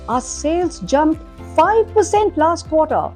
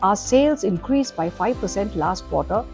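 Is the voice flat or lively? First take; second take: lively; flat. First: It is said with lively, varied pitch. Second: It is said in a flat monotone.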